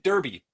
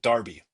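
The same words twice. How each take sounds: First: It is said as spelled, in an American way. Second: It is said the British way. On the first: "Derby is spelled D E R B Y, as in as in Derby" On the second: "You're supposed to pronounce it Derby. It's not like just the British accent pronounces it Derby"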